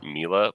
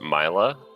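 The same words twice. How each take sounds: First: The first vowel sounds like the letter E. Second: The first vowel sounds like the letter I. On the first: "please type it M E L A" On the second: "please type it M I L A"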